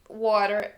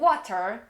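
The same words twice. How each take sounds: First: It is said with an American accent. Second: It is said with a British accent. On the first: The speaker calls it wrong. "com um acento americano" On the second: The speaker calls it right. "Você tem que falar com um acento britânico"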